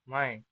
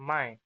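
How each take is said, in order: Both takes have the same delivery.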